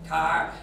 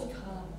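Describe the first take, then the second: First: The word ends with a strong r sound. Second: The word ends without an r sound. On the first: "if I try and say car in American English, I can't, I sound Irish" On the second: "I say car"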